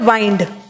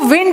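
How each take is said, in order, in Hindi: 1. स्वर ग्लाइड है, जैसे 'wine' में। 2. स्वर छोटा है, जैसे 'win' में। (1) "इसको पढ़ोगे वाइंड" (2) "इसको विंड नहीं पढ़ोगे"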